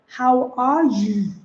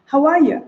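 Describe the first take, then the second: First: "How are you" slow, word by word; laboured textbook "How are you", drawn-out "you"; stilted greeting. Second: "How are you" quick and linked, pitched up; lively, flowing "How are you"; smooth casual greeting. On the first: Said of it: "you don't go". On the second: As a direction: run "How are you" together, higher, falling at the end. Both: Shown as a demonstration.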